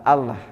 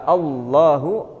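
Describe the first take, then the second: First: The double L is thin and light. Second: The double L is heavy and full-mouthed. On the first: The speaker calls it wrong. "bukan Allah" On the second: The speaker calls it right. "ketika Allahu tafkhim dibaca tafkhim"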